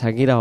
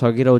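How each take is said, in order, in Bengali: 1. প্রথম স্বরধ্বনিটি একটি খোলা 'a' ধ্বনি। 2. প্রথম স্বরধ্বনিটি গোলাকার 'o'-এর মতো ধ্বনি। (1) "সাগিরা হবে না" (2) "এখানে সগিরা উচ্চারণ হবে"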